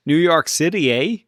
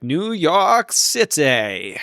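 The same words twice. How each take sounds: First: Lightly attempted Canadian accent with a tacked-on eh. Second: Stretched, slow New York City in a put-on accent; drawn-out New York accent. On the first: Shown as a demonstration. Co-host attempting the requested line, mock Canadian accent. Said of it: "say that in a Canadian accent". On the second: Guessing the band's real destination, drawn-out put-on accent. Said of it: "I need you to say that in a Canadian accent".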